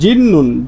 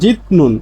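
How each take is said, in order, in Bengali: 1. মাঝের ব্যঞ্জনটি দ্বিত্ব n ধ্বনিতে পরিণত হয়। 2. মাঝের ব্যঞ্জনটি একটি স্পষ্ট t ধ্বনি। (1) "উচ্চারণ করার সময় এরকম করবেন জিন্নুন" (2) "সাধারণভাবে এর উচ্চারণ হচ্ছে ছিতনুন, ছিতনুন বা জিতনুন"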